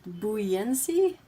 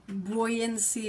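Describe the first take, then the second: First: Buoyancy as "boo-YAN-see", rising; alternative pronunciation. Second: Put-on buoyancy as "BOY-an-see"; first pronunciation option. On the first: Asking which way is right, buoyancy as "boo-YAN-see". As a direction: try buoyancy starting with boo, questioning. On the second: Asking which way is right, buoyancy as "BOY-an-see". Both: Shown as a demonstration. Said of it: "Is it, is it buoyancy?".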